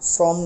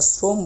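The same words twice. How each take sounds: First: The first vowel is open, like 'aw'. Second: The first vowel is closed, like 'oh'. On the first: The speaker calls it wrong. "শ্রম না" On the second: The speaker calls it right. "এটা শ্রম বলতে হবে আমাদের"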